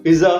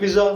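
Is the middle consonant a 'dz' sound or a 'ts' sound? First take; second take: dz; dz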